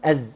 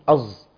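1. صوت الزاي خفيف ومرقّق. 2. صوت الزاي ثقيل ومفخّم. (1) "ما بيقولهاش إيه يعني أز" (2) "لا بيقول إيه أز"

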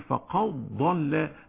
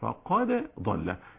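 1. يندمج صوت الدال في الصوت الذي يليه. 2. يُنطق صوت الدال بوضوح ومنفصلًا. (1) "ورش ليه يقول فقد ضل هكذا" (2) "بالاظهار"

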